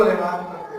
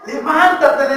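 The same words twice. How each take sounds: First: Low, soft quoted order; solemn, lowered quote; quiet command. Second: Ringing repeat of the quoted order; firm, projected command; emphatic command. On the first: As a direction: let the command sink down gently. Quoted command, first take sinks low. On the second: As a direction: proclaim it firmly in full preaching voice. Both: Retold or imitated.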